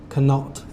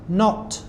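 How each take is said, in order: First: A k sound is heard before the n. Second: The word begins straight with the n sound. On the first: The speaker calls it wrong. "I have a lot of students that maybe say" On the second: The speaker calls it right. "Both of these have a silent letter"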